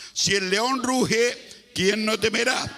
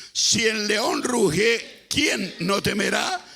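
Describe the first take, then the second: The two takes are said the same way.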